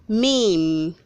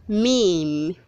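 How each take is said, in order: The two takes are said the same way.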